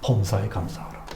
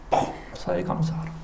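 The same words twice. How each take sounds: First: Quiet recalled sermon line; soft quote of 범사에 감사하라; quoting the pastor. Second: Whispered 범사에 감사하라; unvoiced echo of the sermon; whispered quote. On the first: Retold or imitated. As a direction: say it low, as remembered. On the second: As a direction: breathe 범사에 like a memory. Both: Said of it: "목사님 뭐라고 설교".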